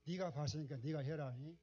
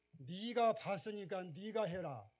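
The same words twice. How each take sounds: First: God's words retold in a Jeolla dialect lilt, rising at the end. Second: Jeolla dialect, slow, higher and louder, falling firmly on 해라; emphatic Jeolla dialect. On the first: Preacher voicing God's command in Jeolla dialect, louder. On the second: Retold or imitated. Preacher booming God's command in Jeolla dialect, slow. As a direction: pronounce each word in Jeolla dialect with weight, slow and loud. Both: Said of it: "전라도 말로 한번 해볼게요".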